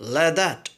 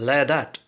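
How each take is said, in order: First: Like is said with a full 'eye' vowel and k. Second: Like is reduced to a short 'ay' without k.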